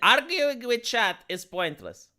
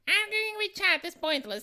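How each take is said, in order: First: It is read in the speaker's ordinary voice. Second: It is read in an imitated, put-on voice.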